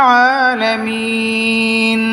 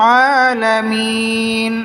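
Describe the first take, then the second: No difference in how they are said.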